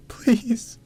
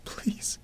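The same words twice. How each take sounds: First: High, loud tearful begging; sobbing high-pitched plea; wailed plea. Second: Soft, voiceless begging; tearful whisper; whispered plea. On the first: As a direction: cry it out in despair. Weeping plea, repeated louder. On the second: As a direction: beg under the breath through tears. Weeping plea over the crib. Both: Acted.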